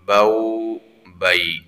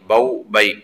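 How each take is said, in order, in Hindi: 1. अक्षर नरमी से बोले जाते हैं और थोड़े लंबे किए जाते हैं। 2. अक्षर जल्दी-जल्दी बोले जाते हैं और छोटे काटे जाते हैं। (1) "इंतहाई नरमी के साथ, सहूलत के साथ पढ़ेंगे... थोड़ा सा इसको लंबा भी करेंगे" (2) "ऐसे जल्दी में नहीं पढ़ेंगे"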